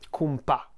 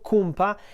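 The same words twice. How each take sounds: First: The stress is on the last syllable. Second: The stress is on the first syllable. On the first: A friendly way to address a buddy. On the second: Slang for one's group of friends.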